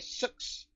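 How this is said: It is said in a New Zealand accent.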